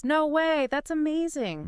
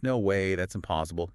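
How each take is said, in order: First: High-pitched amazed. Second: Flatter, dropping tone, not buying it; skeptical disbelief. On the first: Reacting to a friend's lottery win, high and amazed. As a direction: voice shoots way up in delight. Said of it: "high-pitched, amazed voice". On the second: Hearing an impossible claim from a friend, skeptical and flat. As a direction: say it like you don't believe a word. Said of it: "probably more like skeptical". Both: Shown as a demonstration.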